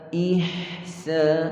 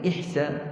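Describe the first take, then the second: First: The h sound is held for its full length. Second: The h sound is cut short before the s. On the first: The speaker calls it right. "Perlu kita beri tempoh yang sempurna sebelum pindah kepada sin" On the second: The speaker calls it wrong.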